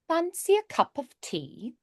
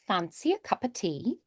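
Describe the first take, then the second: First: Each word is pronounced separately and formally. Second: The words flow together in everyday British speech. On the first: "more like Shakespearean or Downton Abbey ... you do each individual word more" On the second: "for that standard British, you'd hear that sometimes"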